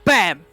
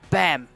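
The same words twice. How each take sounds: First: The word is said loudly with strong emphasis. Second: The word is said plainly, without extra force. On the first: The speaker calls it right. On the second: The speaker calls it wrong.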